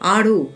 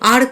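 First: The word ends with a sounded 'o' vowel. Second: The word ends without a final vowel. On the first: The speaker calls it right. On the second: The speaker calls it wrong. "নয়"

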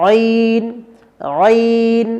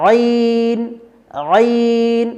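No difference in how they are said.

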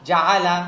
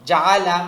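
Both takes have the same delivery.

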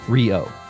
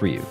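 First: The name ends with an 'oh' vowel. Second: The name ends with an 'oo' vowel. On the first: "To me, it looks like Ryo. Like the Brazilian... Rio de Janeiro" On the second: "It's pronounced Ryu. Like, that's how Ryu from Street Fighter is pronounced"

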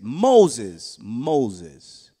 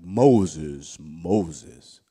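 First: It is said in a plain reading voice. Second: It is said in a big, booming voice.

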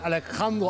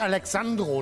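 First: The middle consonant is a throaty 'ch' sound. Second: The middle consonant is a 'ks' sound. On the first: The speaker calls it right. "Alejandro heißt das" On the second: The speaker calls it wrong. "Heißt nicht Alexandro"

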